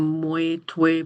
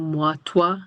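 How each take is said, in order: First: Moi and toi end in a 'weh' sound. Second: Moi and toi end in a 'wa' sound. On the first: This is an archaic regional pronunciation. "il y a des prononciations comme" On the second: This is the standard pronunciation.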